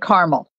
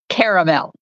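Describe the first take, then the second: First: The word is said with two syllables. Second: The word is said with three syllables. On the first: This is the speaker's own way of saying it. "I say caramel" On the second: This is how a family member says it. "because it's got an extra A in it"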